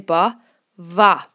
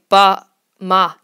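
First: The second word begins with a v sound. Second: The second word begins with an m sound. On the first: The speaker calls it right. "You always say ba va" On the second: The speaker calls it wrong. "you would never say ba ma lum"

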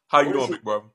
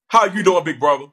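First: It is spoken in a plain, natural voice. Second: It is spoken in a put-on, unnatural voice. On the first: The speaker calls it right. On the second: The speaker calls it wrong.

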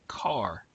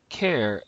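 First: It begins with k and rhymes with far. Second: It begins with k and rhymes with air. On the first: "as in a vehicle that you drive" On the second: "as in character"

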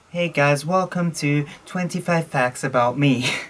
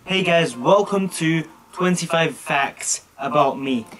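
First: It is said with flat, low energy. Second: It is said with lively, enthusiastic energy. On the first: "Like here, I'm just like" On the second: "now I'm a bit more enthusiastic"

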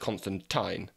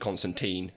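First: The last syllable sounds like 'tyne'. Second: The last syllable does not sound like 'tyne'. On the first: The speaker calls it right. "Tyne, it's Constantine" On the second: The speaker calls it wrong. "thanks, John Constantine"

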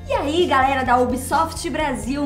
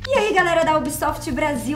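First: It is spoken slowly with every syllable overly crisp. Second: It is spoken at a moderate, natural pace. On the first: "Tá muito articulado" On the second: "Meio termo"

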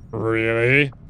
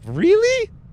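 First: It is said in a put-on deep, manly voice. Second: It is said in his normal voice.

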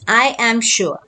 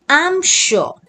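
First: Both words 'I am' are said in full. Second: 'I am' is joined into one syllable. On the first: The speaker calls it wrong. "Don't read it as I am sure" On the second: The speaker calls it right. "so you will read it as I'm sure"

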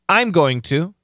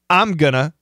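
First: Every word is said fully and clearly. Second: Going to is reduced to gonna. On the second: "Most common"

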